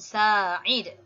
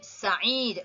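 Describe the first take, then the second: First: The first vowel is long. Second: The first vowel is short. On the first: The speaker calls it wrong. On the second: The speaker calls it right. "dibaca pendek"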